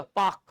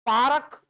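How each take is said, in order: First: "पाक" with the R dropped, long vowel; correct pronunciation. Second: "पारक" with R fully sounded, two syllables; wrong pronunciation. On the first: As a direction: say "पाक" as one syllable, paak. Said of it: "आर का उच्चारण अपन बचते हैं". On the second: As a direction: say "पारक" as paa-ruk. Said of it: "पारक ऐसा नहीं होता". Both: Shown as a demonstration.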